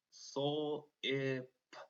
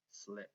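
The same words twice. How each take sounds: First: "Sol, I, p" as separate sounds: sl, short i, p; sounded out. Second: Said in the usual way. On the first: Shown as a demonstration. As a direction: break "Sol, I, p" into blend, vowel and final p. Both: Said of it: "I hear our consonant blend".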